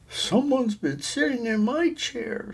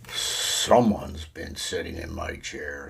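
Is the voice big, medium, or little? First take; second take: medium; big. First: It is said in a middle-sized voice. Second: It is said in a great big voice.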